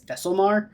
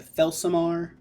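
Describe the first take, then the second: First: The L sound comes just before the last syllable. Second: The L sound comes right after the first vowel. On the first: The speaker calls it wrong. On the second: The speaker calls it right.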